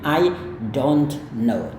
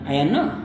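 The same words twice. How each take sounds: First: Each word is pronounced clearly and separately. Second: The phrase is mumbled lazily, barely articulated. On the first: "kalau Anda mau lafalkan kata per kata" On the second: "orang bule yang malas menjawab atau mungkin dia sedang sibuk"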